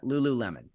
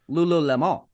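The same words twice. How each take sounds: First: The name is said with a plain English pronunciation. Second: The name is said with a French-sounding pronunciation. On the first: The speaker calls it right. "That's how you pronounce that" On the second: The speaker calls it wrong. "I said it also Lululemon. Like I thought it was French"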